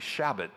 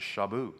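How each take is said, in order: First: The name is given an English-style pronunciation. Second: The name is given a French-style pronunciation. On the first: "It would be" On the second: "the way the French pronounce it"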